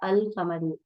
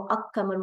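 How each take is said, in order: First: The L is pronounced before a single Q. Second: The L is dropped and the Q is doubled. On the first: The speaker calls it right. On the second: The speaker calls it wrong. "नहीं पढ़ा गया"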